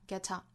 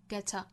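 First: The t is released with a burst of air. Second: The same.

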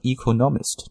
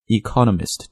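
First: The stress is not on the second syllable. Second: The stress is on the second syllable. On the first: The speaker calls it wrong. "this is a wrong pronunciation because the stress isn't in the proper position" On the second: The speaker calls it right. "重音呢应该落在 co 上面"

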